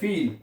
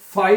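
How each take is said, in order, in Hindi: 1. स्वर को 'ee' की तरह बोला जाता है। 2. स्वर को 'eye' की तरह बोला जाता है। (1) "फील पढ़ते हैं" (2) "फाइल नहीं पढ़ते"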